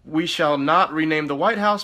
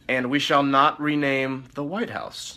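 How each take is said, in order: First: Said in the usual way. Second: Slowly, weighing each word; slow deliberate reading. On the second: Acted. Aide to president, reading a demand slowly. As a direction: read it out slowly.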